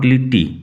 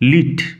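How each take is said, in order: First: The name is said with an extra final vowel. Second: The name is said as one short syllable. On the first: The speaker calls it wrong. "Not লিটটি, লিটটি নয়" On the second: The speaker calls it right. "উচ্চারণ লক্ষ্য করো"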